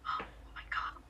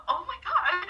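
First: Breath-only awed gasp; whispered awe. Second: High, loud mimicked gasp of delight; little squeal. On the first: Retold or imitated. Friends watching the hand grab, imitated in an awed whisper. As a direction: whisper it as if stunned. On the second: Bunch of friends reacting behind her, imitated little squeals. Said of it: "you heard a bunch of little".

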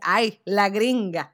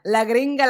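First: Slow, stretched mock scorn on "gringa"; drawn-out teasing. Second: "la gringa" repeated louder, clipped jab; punchier teasing. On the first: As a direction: draw out "Ay, la gringa" like a friend teasing. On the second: Retold or imitated. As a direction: toss "la gringa" back as a quick jab. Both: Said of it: "entonces me dice".

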